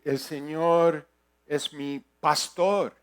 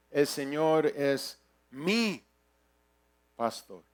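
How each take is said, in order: First: Slow phrase landing firmly on "pastor"; "pastor" stretched out and emphasized at the end; stress on pastor. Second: Long rising-falling swell on "mi", "pastor" dropped quietly; stress on mi. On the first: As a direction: pause slightly, then punch "pastor". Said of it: "O puedo decir". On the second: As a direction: hit "mi" slowly and hold it apart. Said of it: "darle énfasis en una, cada palabra". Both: Shown as a demonstration.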